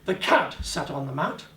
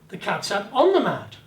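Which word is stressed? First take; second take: cat; on. First: The word cat carries the emphasis. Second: The word on carries the emphasis. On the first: It was the cat, not another animal. "not the dog, not the guinea rib, the guinea pig" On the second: It was on the mat, not elsewhere. "On the mat, not elsewhere"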